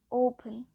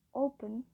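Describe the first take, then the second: First: O-pen, first syllable punched loud; stress on first syllable. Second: Said in the usual way. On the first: Shown as a demonstration. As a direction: hit the O of open hard, then drop on -pen. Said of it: "suara open-nya harus berbeda". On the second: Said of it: "Jadi penekanan, jika kita bilang".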